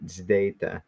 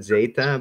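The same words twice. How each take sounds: First: "zdeta" with a d slipped in after the z. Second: "zeta" with a clean z and no d; plain zeta. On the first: Teacher giving the way he learned it, "zdeta". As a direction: say "zdeta", z and d back to back. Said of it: "from the way I learned it". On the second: Teacher giving the other common way, "zeta". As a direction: say "zeta" simply, no d sound. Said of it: "some people pronounce it zeta". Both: Shown as a demonstration.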